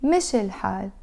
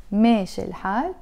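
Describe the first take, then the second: First: مشي said with a short clipped "mi", no long a; teacher keeps the first vowel of مشي short. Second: ماشي said with a long drawn "maa" before الحال; teacher stretches the first vowel of ماشي. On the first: Teaching students the difference, short "mi" in مشي. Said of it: "hear it". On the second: Teaching students the difference, long "maa" in ماشي. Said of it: "that's long". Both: Shown as a demonstration.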